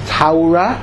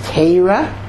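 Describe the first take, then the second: First: Torah is said in a Yekke Hebrew accent. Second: Torah is said in a Lithuanian Hebrew accent. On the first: "which is the Yeki pronunciation" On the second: "which is the Litvisha pronunciation"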